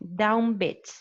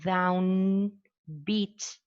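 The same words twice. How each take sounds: First: Down ends with an m sound. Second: Down ends with an n sound. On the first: "with a bilabial nasal instead of a, an alveolar nasal" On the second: "instead of saying down beat"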